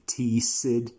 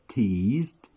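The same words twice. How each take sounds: First: The ending is an extra 'id' syllable. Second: The ending is a plain D sound. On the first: The speaker calls it wrong. "never are you going to say" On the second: The speaker calls it right. "The ed sound is going to sound as D"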